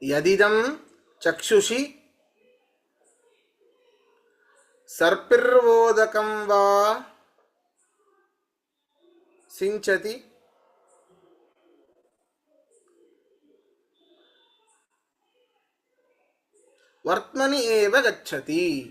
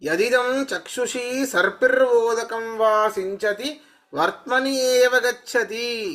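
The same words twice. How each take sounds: First: It is recited at a slower, careful pace. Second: It is recited at a faster, normal pace.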